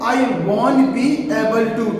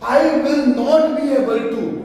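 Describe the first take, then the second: First: Will and not merge into one short word. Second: Will and not are said as separate words.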